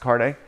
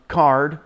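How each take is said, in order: First: It does not sound like the word card. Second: It sounds exactly like the word card. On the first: This is how the name is meant to be said. The speaker calls it right. "but it's actually pronounced Carde, uh, not card" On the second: This is how a misreader said it. The speaker calls it wrong. "he would always pronounce it um, card"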